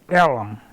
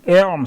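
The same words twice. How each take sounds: First: The name is said as two syllables. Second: The name is said as one syllable. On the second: This is the standard naming of the street.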